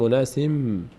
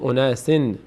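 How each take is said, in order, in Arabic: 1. تنتهي الكلمة بصوت ميم. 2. تنتهي الكلمة بصوت نون واضح. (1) "میگیم اوناسیم، میم تلفظ میکنیم" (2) "نمیگیم اوناسین"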